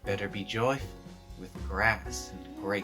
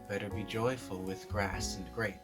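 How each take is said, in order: First: It is said with heavy, woozy, drawn-out stress. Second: It is said in a plain, ordinary way. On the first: The speaker calls it right. "Almost as if she's taken a hit of the aforementioned grass" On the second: The speaker calls it wrong. "She's not saying, oh"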